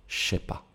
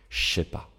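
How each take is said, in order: First: The 'je' becomes a voiceless 'sh' sound. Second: The same.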